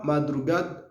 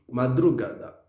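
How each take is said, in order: First: "madrugada" said as ma-dru-GAD; wrong, final A dropped. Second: "madrugada" said as ma-dru-GA-da; four full syllables in "madrugada"; correct, final A sounded. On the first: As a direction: end "madrugada" on the D. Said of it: "on dit pas madrugada". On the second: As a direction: keep the last vowel of "madrugada". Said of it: "on dit madrugada". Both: Shown as a demonstration.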